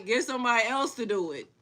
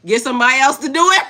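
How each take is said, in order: First: Much softer, settled repeat; soft aside repeat; quiet repeat. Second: Fast and loud with a laugh; loud laughing brush-off; laughing retort. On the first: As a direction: say it again under the breath. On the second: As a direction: toss it off laughing. Loud laughing first take. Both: Real, not acted.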